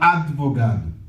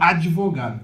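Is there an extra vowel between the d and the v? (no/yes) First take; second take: no; yes. First: The first syllable is closed, with no vowel after d. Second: A vowel is inserted after d, adding a syllable. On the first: "Difícil alguém chegar e falar advogado" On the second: "Geralmente fala advogado"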